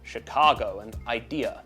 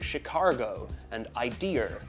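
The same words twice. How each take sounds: First: No R sound is added at the word ends. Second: An R sound is added at the word ends. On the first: The speaker calls it right. "There's no R in the word Chicago" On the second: The speaker calls it wrong. "with R's in"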